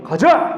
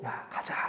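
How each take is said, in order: First: Loud, sharp order to march; commanding call. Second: Breathy whispered invitation; whispered call. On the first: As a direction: shout it like a drill sergeant. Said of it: "군대에서 명령하는 것처럼". (크게 명령하듯 외치는) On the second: God's call retold quietly. (속삭이듯 부르는 "야, 가자") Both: Acted.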